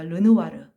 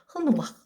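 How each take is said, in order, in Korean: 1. 이 이름은 혀를 가볍게 굴리는 R 소리로 시작해요. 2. 이 이름은 목구멍에서 나는 H 같은 소리로 시작해요.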